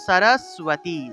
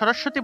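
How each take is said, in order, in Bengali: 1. মাঝের যুক্তবর্ণটি 'w' ধ্বনি সহ উচ্চারিত হয়। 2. মাঝের যুক্তবর্ণটি 'w' ধ্বনি ছাড়া উচ্চারিত হয়। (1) "উচ্চারণ হবে স র সুয়াতি" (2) "আমরা তো সরস্বতী বলে ফেলি"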